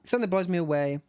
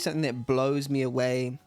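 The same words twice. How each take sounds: First: The word blows is lightly emphasized. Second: The word blows is heavily emphasized.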